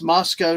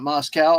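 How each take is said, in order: First: The second syllable does not rhyme with cow. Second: The second syllable rhymes with cow. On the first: The speaker calls it right. "And it's Moscow" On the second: The speaker calls it wrong. "not Moscow. ... They don't have cows"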